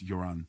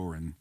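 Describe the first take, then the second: First: The name begins with a Y sound. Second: The name begins with a hard G sound. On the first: This is the name's actual pronunciation. The speaker calls it right. "the pronunciation's Joran" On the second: This is how most people say the name. The speaker calls it wrong. "Everybody calls him"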